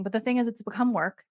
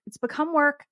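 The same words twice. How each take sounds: First: Said in the usual way. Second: It's become work, WORK hit higher and falling; emphatic repeat. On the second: Shown as a demonstration.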